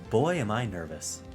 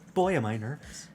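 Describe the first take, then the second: First: It is said in a flat, unexpressive voice. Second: It is said in a lively, expressive voice.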